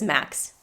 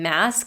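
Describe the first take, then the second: First: The word ends with a 'ks' sound. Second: The word ends with an 'sk' sound. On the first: The speaker calls it wrong. "he says max" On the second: The speaker calls it right. "instead of saying mask"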